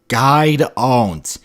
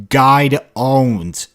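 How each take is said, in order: First: The name is squashed into one syllable, 'guide'. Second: The name is squashed into one syllable, 'guide'.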